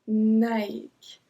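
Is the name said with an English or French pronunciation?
French. It is said with a French pronunciation. The speaker calls it right.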